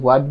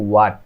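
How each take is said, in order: First: The word begins with an h sound. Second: The word begins directly with a w sound. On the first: The speaker calls it wrong. "আমি হোয়াট বলি, এখনো ভুল করি।" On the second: The speaker calls it right. "এটা হচ্ছে ওয়াট। ... তখন এইচ এর উচ্চারণ হয় না"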